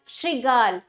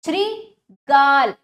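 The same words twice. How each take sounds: First: Said in the usual way. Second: श्रीगाल slow, as Shri... then a loud गाल; broken into syllables. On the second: Shown as a demonstration. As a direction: split श्रीगाल and push गाल. (श्रीगाल को तोड़कर, गाल पर ज़ोर) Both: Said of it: "तोड़कर पहले".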